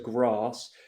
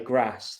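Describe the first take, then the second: First: It is said in a southern English accent. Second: It is said in a northern English accent. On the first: "my accent would be described as a neutral southern accent" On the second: "people in the north of England, they say grass"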